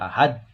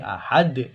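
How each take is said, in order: First: The final d has a weak, soft release. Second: The final d has a strong, bouncing release. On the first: The speaker calls it wrong. "enggak boleh" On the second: The speaker calls it right. "harus dikeraskan pantulannya"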